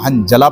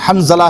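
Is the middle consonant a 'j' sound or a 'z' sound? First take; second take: j sound; z sound. First: The middle consonant is a j sound. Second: The middle consonant is a z sound. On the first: The speaker calls it wrong. "हंजला पढ़ लें जीम से, वो भी गलत है" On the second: The speaker calls it right. "सही लफ्ज़ हंज़ला है ज़ोई से"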